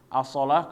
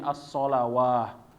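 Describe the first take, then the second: First: It ends without a w sound before the final vowel. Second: It has a w sound before the final vowel. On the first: The speaker calls it wrong. "Orang-orang kelirunya biasanya membaca solah" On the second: The speaker calls it right. "ketika dibaca di dalam Al-Qur'an menjadi as-solawah"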